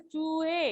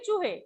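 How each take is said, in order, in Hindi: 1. पहला स्वर लंबा बोला जाता है। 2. पहला स्वर छोटा रखा जाता है। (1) "बड़ी जो मात्रा है उसका उच्चारण हम अधिक देर तक करते हैं" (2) "यहाँ छोटे ऊ की मात्रा है"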